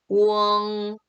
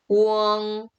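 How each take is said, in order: The two takes are said the same way.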